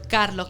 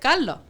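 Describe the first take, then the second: First: The r before the l is clearly pronounced. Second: The r is dropped and the final s aspirated. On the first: "yo no pronuncio Carlos con R" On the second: "yo pronuncio Carlos"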